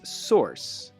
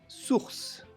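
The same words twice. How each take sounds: First: It is said with an American English pronunciation. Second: It is said with a French pronunciation. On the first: "In American English, it's source. It sounds like course or horse" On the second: "In French, it's source. It sounds like bourse or course"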